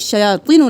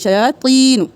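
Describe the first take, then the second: First: The 'i' vowel is cut short. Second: The 'i' vowel is held long. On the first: The speaker calls it wrong. "नहीं करेंगे" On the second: The speaker calls it right. "इसको भी एक अलिफ के बराबर खींचेंगे"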